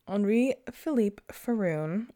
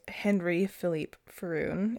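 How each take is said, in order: First: The name is pronounced the French way. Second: The name is pronounced the English way.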